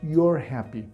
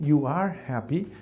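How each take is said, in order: First: Pronoun and verb are merged into one word. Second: Pronoun and verb are said as separate words. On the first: "it says" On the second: "Instead of saying"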